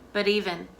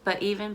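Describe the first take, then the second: First: The t is a light d sound. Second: The t is cut off as a throat stop. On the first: "make it more of a light D sound" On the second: "you can stop the sound in the back of your throat"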